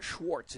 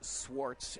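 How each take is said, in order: First: The name begins with an 'sh' sound. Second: The name begins with a plain 's' sound. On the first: The speaker calls it wrong. "it's not Schwartz" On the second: The speaker calls it right. "it's Swartz, S W A R T S"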